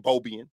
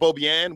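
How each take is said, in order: First: The name is said with an anglicized pronunciation. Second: The name is said with a French pronunciation. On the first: This is how locals say it. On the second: This is the original form of the name.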